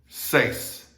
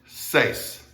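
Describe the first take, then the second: Both takes have the same delivery.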